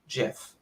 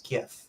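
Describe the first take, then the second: First: The word begins with a soft J sound. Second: The word begins with a hard G sound. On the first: The speaker calls it wrong. "It is not Jif. It's just not" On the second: The speaker calls it right. "I'm very choosy and I choose GIF"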